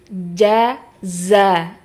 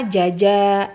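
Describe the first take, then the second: First: A j sound comes first, then z. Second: Both syllables begin with a j sound. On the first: The speaker calls it right. "harusnya jim dulu baru za" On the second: The speaker calls it wrong. "Kadang-kadang huruf jim semua"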